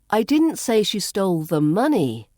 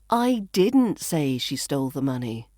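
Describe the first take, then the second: First: The word money carries the main stress. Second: The word didn't carries the main stress. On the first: She stole something else. "Perhaps she stole something else" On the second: The speaker never said it. "which implies I never said that"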